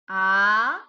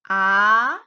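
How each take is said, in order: First: It is said with the second tone. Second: The same.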